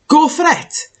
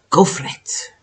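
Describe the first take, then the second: First: Cheer. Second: Whisper. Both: Real, not acted. Urging herself to try it.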